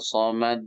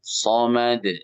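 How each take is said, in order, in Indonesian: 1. Konsonan akhir ditahan dengan jeda. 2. Konsonan akhir langsung memantul keluar. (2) "somad langsung. Jangan ketahan walaupun sebentar"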